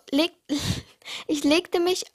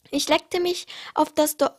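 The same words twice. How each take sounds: First: Reading on through a real laugh, slower; laughing at own misreading. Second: Said in the usual way. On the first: Real, not acted. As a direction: giggle over the slip.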